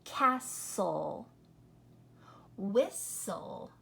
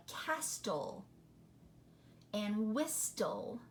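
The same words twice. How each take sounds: First: Castle as kassel, Whistle as wissel, no T; correct silent T. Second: Castle and whistle with a hard T, kastel, wistel; wrong T sounded. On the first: Teacher modeling the right way, silent T. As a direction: say them with no T, only the L. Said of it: "you're just hearing the L". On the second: Teacher showing the mispronunciation with T. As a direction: sound the T, kas-tel, wis-tel. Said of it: "if we said the T". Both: Shown as a demonstration.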